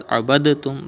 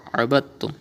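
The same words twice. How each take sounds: First: Abadtum with the d sounded; wrong reading. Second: Abadtum with the d skipped into doubled t; right reading. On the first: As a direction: say the d in abadtum clearly. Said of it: "You will not read as". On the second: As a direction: join ba straight to the doubled t in abadtum. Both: Shown as a demonstration.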